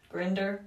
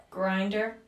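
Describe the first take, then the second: First: "Grinder" with a short i, as in grin; questioning "Grinder", first vowel short; short-i pronunciation. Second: "Grinder" with a long i, as in grind; questioning "Grinder", first vowel like eye; long-i pronunciation. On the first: Tries the other reading. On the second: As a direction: say "Grinder" to rhyme with finder. Unsure how name is read. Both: Real, not acted.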